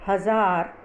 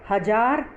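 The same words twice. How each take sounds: First: हज़ार with a buzzing z; pronounced with nukta. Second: हज़ार with a hard j; wrong pronunciation. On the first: Teacher reads her word list, हज़ार said with z. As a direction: say हज़ार with z, not j. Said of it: "ये dot हटा के". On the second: Teacher shows the dotless misreading, हज़ार said with j. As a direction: say हज़ार as hajaar, no z. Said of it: "जो गलत होगा". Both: Shown as a demonstration.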